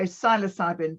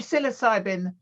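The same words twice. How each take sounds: First: It is said the British way. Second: It is said the American way. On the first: "we Brits say" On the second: "you say"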